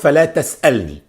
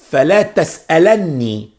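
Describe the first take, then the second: First: The verb ends with a single n, no vowel. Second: The verb ends with a vowel and doubled n. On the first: Do not ask me. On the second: Do not ever ask me. "We say"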